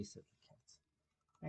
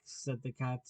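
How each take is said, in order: First: Slow breathy whisper of the tag. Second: Said in the usual way. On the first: A narrator's reading. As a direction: let the words fade to a slow whisper.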